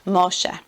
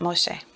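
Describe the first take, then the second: First: The word is said slowly. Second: The word is said quickly.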